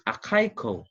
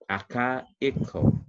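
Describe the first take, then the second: First: Akaiko with AI as one syllable; read straight through. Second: Akaiko slowly split as aka, i, ko; separated syllables. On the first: Teacher showing the word without diaeresis, read straight. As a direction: run the vowels of akaiko together as a diphthong. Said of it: "read it straightly without the, the diaeresis". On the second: Teacher showing the word with diaeresis, syllables apart. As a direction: break Akaiko up, second vowel its own syllable. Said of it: "if you have seen the diaeresis". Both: Shown as a demonstration.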